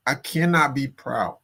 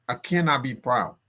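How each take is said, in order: Both takes have the same delivery.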